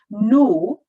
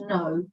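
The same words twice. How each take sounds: First: The word is said in a Scottish accent. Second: The word is said in an English accent. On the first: It is a softer, less firm refusal. "a version of the word no that she said with a Scottish accent" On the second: It means definitely not. "the English version of the word no"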